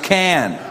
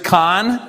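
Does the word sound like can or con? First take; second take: can; con. First: The vowel is like the one in cat. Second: The vowel is like the one in con. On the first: The speaker calls it right. "C-A-N spells can" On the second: The speaker calls it wrong. "The garbage con? No"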